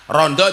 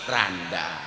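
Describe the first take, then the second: First: It is said with Yogya o vowels. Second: It is said with Kebumen a vowels.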